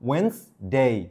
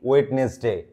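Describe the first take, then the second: First: The first d and middle vowel are dropped. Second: The first d and middle vowel are pronounced. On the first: The speaker calls it right. "ই এর উচ্চারণ আর ডি এর উচ্চারণ আসবে না" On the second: The speaker calls it wrong. "ওয়েডনেসডে না গুরু"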